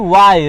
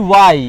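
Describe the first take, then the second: No difference in how they are said.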